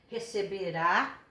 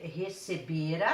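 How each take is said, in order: First: Receberá with a strong final RÁ; stress on last syllable. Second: Receberá said as receBEra, stress on BE. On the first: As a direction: land hard on the last syllable of receberá, slowly. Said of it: "a sílaba tônica de uma palavra". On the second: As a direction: draw out BE in receberá, leaving the last syllable weak. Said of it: "a sílaba tônica tá aqui". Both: Shown as a demonstration.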